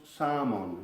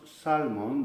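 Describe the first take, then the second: First: 'salmon' with the L silent; 'salmon' as 'samon', no L; correct pronunciation. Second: 'salmon' with the L sounded; wrong pronunciation. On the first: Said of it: "decimos salmon". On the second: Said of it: "no decimos salmon". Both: Shown as a demonstration.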